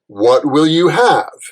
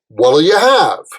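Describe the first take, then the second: First: What and will are said as two full words. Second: What and will merge into one short syllable.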